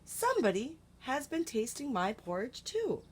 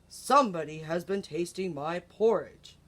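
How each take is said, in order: First: It is said in a soft, gentle voice. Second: It is said in a deep, gruff voice.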